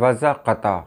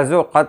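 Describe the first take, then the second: First: A vowel is sounded after the z. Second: No vowel is sounded after the z. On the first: The speaker calls it wrong. "बहुत सारे लोग कहते हैं वज़् क़ता, ये गलत है" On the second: The speaker calls it right. "ऐन को आ, साकिन माना जाए"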